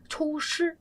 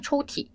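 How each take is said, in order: First: The second syllable begins with an sh sound. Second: The second syllable begins with a t sound. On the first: The speaker calls it wrong. "이러다가 망하는 거죠" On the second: The speaker calls it right. "발음이 초티해서 T자가 될 텐데"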